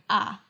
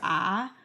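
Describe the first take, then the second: First: The sound is short and clipped. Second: The pitch falls and then rises. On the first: "a sort of staccato" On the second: "a sort of falling, falling and rising"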